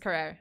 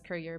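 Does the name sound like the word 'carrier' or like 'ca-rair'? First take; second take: ca-rair; carrier. First: The name ends with a long 'rair' sound. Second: The name sounds like the English word carrier. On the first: The speaker calls it right. "but it's Carrere, I think" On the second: The speaker calls it wrong. "I keep like pronouncing it as Carrier"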